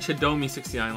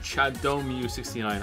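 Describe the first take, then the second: First: The name ends with an 'ee' vowel. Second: The name ends with an 'oo' vowel. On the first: The speaker calls it wrong. "I think I was saying Chadomi sixty-nine last time" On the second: The speaker calls it right. "rightfully corrected me to Chadomu sixty-nine"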